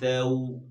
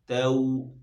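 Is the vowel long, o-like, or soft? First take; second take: soft; soft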